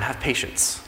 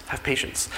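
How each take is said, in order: First: Softly begging, voice sinking low; hushed plea. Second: Breathy whispered begging; whispered plea. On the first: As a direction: ask for patience quietly. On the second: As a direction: whisper it, almost gone. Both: Acted. Servant begs the king.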